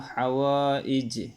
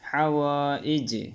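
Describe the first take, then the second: Both takes have the same delivery.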